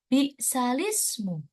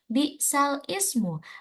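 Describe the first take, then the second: First: The hamza is dropped and lam links to ismu. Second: Ismu starts separately with its own hamza. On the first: "dibaca menjadi" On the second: "tertulis tulisannya"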